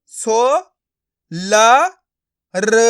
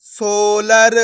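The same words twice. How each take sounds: First: सो, ल, र each sounded alone; syllable by syllable. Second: सोलर as one stretched word; blended word. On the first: Teacher breaking a word up for learners, syllable by syllable. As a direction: pause between सो, ल and र. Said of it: "एक एक अक्षर का उच्चारण करके". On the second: Teacher showing learners the joined result, blended word. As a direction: run सो, ल, र together as सोलर. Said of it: "आपस में मिला के पढ़ देना है". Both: Shown as a demonstration.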